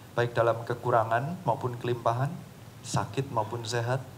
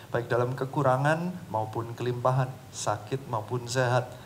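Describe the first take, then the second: No difference in how they are said.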